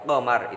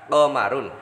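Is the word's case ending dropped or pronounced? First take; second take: dropped; pronounced. First: The word ends without the case ending. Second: The word ends with the full case ending. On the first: This is the pausal form. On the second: This is the full vowelled form.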